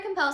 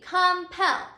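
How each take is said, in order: First: Said in the usual way. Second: Louder, deliberate "compel", com and pel set apart, PEL stressed; stressed final syllable. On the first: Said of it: "when I say the word compel". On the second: Shown as a demonstration. Teacher asking class to say it with her, deliberate syllable stress. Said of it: "accented or the strongest syllable".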